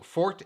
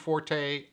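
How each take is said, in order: First: The name is said as one syllable. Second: The name is said as two syllables. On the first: "Fort is the preferred pronunciation" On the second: "Everyone's saying Forte"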